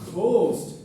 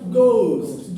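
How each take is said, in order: First: The g is followed by a breathy puff. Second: The g is plain with no breathy puff. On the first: This is how second-language speakers say it. The speaker calls it wrong. "We will say ghost, but that's not the right pronunciation" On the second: This is how native speakers say it. The speaker calls it right. "The right pronunciation is ghost"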